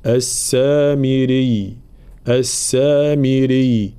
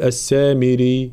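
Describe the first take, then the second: First: Slow السامري with a pressed, doubled final y. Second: السامري ending in a plain ee; wrong undoubled ya. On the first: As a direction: lean on the last ya of السامري without overdoing it. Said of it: "لابد من بيان تشديد الياء بلا مبالغة". (السامري بتشديد الياء بلا مبالغة) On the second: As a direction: let the final ya of السامري go slack. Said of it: "فلا نقول السامري". (السامري دون تشديد الياء) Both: Shown as a demonstration.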